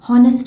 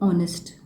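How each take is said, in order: First: The word begins with an audible H sound. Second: The word begins directly with a vowel sound. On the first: The speaker calls it wrong. "हॉनेस्ट नहीं बोलते, एच pronounce नहीं होता" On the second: The speaker calls it right. "इसमें ऑनेस्ट pronunciation आता है"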